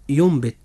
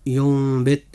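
First: ينبت with a clear n sound before the b, no iqlab; wrong pronunciation. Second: ينبت with the n turned into a nasal m and ghunna before the b; correct iqlab. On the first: Teacher showing listeners the wrong reading, plain demonstration. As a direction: say ينبت pronouncing the n fully, as the mistake. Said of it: "ولا تنطق ينبت لأن هذا يعد خطأ". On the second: Teacher correcting the mistake for listeners, careful recitation. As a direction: give ينبت its hidden nasal m. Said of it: "إنما تنطق ينبت". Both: Shown as a demonstration.

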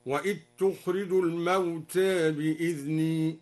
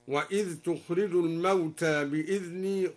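First: وإذ تخرج as wa'it-tukhrij, الموتى slightly tilted; dhal merged, reduced imala. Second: وإذ تخرج with clear dhal; standard reading. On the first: Teacher demonstrates al-Duri's reading, recitation. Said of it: "وأدغم الذال في الجيم هكذا". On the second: Teacher recites before showing the assimilation, chanted. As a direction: keep the dhal of وإذ distinct. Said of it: "قلل لفظ الموتى وأدغم الذال". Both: Shown as a demonstration.

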